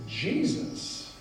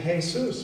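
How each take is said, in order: First: "Jesus" with a soft j and stressed first syllable; English pronunciation of Jesus. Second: "Jesus" with an h sound, the Spanish way; Spanish pronunciation of Jesus. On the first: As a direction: say "Jesus" as JEE-zus. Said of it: "but in English it's". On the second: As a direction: say "Jesus" as hay-SOOS. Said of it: "They just pronounce it". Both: Shown as a demonstration.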